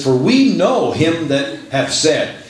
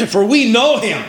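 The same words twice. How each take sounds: First: Said in the usual way. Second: "know him" high-pitched and emphatic; emphatic quote. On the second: Shown as a demonstration. Preacher pointing congregation to first four words, "know" emphasized high.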